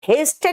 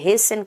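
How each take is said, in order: First: The t in the middle is pronounced. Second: The t in the middle is silent. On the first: The speaker calls it wrong. "हेस्टन नहीं कहते" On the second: The speaker calls it right. "टी silent हो जाता है"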